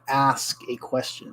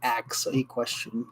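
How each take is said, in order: First: The first word sounds like ask, s before k. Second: The first word sounds like axe, k before s. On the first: Someone is posing a question. The speaker calls it right. "I'm going to ask a question" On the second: Someone is attacking a question with a cutting tool. The speaker calls it wrong. "not ask a question"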